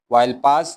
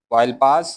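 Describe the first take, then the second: No difference in how they are said.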